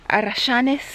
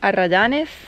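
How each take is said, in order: First: It is said in an Argentine Spanish accent. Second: It is said in a neutral Spanish accent.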